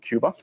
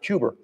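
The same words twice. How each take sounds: First: The word ends in a plain vowel, no R. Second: The word ends with an added R sound. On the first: "not Cuba" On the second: "They put them at the end of other words. They say the island of Cuba"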